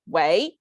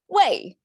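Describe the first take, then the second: First: The pitch rises on the word. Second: The pitch falls on the word. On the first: The caller sounds like a struggling young person. "So if it's a rising tone" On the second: The caller sounds like a greasy middle-aged man. "it says falling tone"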